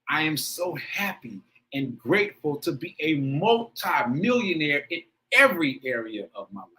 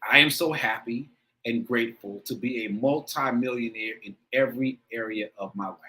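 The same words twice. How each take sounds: First: It is read with strong, heartfelt emotion. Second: It is read plainly, without emotion.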